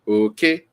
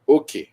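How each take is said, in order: First: The pitch stays high on both syllables. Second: The pitch is high, then low. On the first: "high, high" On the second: "high low, it means share"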